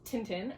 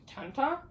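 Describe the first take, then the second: First: The name is said with an American pronunciation. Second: The name is said with a French pronunciation. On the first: "Americans say this Tintin" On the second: "people who are Belgian or French ... say it like Tanta"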